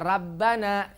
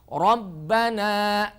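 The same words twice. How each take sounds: First: The r is pronounced light and thin. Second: The r is pronounced heavy and full. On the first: The speaker calls it wrong. "tidak boleh baca" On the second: The speaker calls it right.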